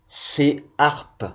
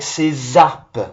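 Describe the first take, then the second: First: The s is not carried onto the next word. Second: The s is linked onto the next word. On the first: The speaker calls it right. "On entend la voyelle" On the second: The speaker calls it wrong. "On ne dit pas"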